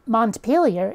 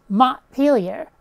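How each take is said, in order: First: Said in the usual way. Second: "Montpelier" as Mon'-peel-yer, no T; dropped T. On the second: Shown as a demonstration. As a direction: swallow the T in "Montpelier" with a slow break. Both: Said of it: "The letter T does not get pronounced".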